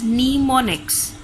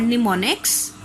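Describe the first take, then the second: First: "mnemonics" said slowly and deliberately; pronunciation demo. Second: Said in the usual way. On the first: Shown as a demonstration. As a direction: slowly sound out "mnemonics" for the class. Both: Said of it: "pronounced as mnemonics".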